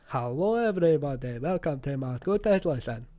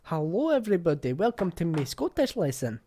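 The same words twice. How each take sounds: First: Slow, overdone fake Scottish, louder; drawn-out fake Scottish. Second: Mocking her stiff Scottish intro; mock English lassie. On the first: Mocking the English lassie's slow fake Scottish accent. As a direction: stretch every word like a bad Scottish impression. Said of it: "It was too slow, it was too drawn out". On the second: Mimicking the video's English lassie, mocking. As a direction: repeat her clumsy lesson opener, loud. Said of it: "it's no great".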